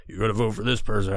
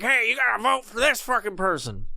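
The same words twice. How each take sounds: First: Lower, faster mock Thanos voice; Thanos impression. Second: A lightly higher, failed Thanos try; bad Thanos impression. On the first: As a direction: drop down for a rough Thanos. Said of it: "however the fuck he talks". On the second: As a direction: miss the Thanos voice on purpose. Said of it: "That's not how he talks".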